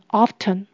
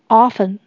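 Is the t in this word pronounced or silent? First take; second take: pronounced; silent. First: The t sound is pronounced. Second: The t sound is silent. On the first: "如果发音的话就是念成often" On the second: "不发音的话就是念成often"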